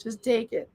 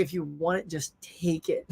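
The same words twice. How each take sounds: First: Quiet, casual "Just take it."; the wife waving it away quietly; soft offhand wife. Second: Soft shrug. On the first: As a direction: toss off "Just take it." gently. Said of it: "that's how she would be". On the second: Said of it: "My wife would just be like". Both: Retold or imitated.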